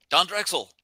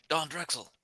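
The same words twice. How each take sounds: First: Higher, firmer second call; pretend yell. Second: High but soft, held-back call; pretend yell. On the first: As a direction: call out to someone far below. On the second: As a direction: call out a name without real volume. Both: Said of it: "I'll, I'll yell out".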